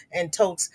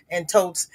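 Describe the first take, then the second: No difference in how they are said.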